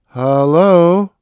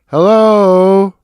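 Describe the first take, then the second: First: It is said quietly and hesitantly. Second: It is said loudly and more firmly.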